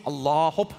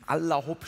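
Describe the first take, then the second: First: "Allah" with a long, drawn second a before "Hopp". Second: Said in the usual way. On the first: Shown as a demonstration. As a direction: stretch the end of "Allah", then add "Hopp". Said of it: "es kommt nicht aus dem Muslimischen". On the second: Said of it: "Allah Hopp steckt auch noch drin".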